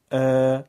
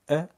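First: ا stretched to two beats and louder; long alef. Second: ا said as a quick one-beat a; short fatha. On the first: Teacher giving pupils the two-beat long alef, louder and stretched. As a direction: hold ا out as a long aa. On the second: Teacher giving pupils the one-beat fatha, short and quick. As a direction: clip ا short to a single beat. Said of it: "صدای فتحه و الف مدی بخونیم". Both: Shown as a demonstration.

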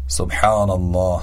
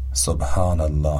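First: سبحان الله with a throaty ḥ; سبحان الله with a pharyngeal ḥ; correct Arabic ḥ. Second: سبحان الله with an ordinary h; Persian h. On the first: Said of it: "به تلفظ صحیح این کلمات دقت بفرمایید". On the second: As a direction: say سبحان الله with a light breathy h. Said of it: "به جای". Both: Shown as a demonstration.

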